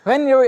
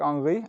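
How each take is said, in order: First: The name is said with an American pronunciation. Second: The name is said with a European pronunciation. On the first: The speaker calls it wrong. "American commentators, they were just like" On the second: The speaker calls it right. "European commentators to go like"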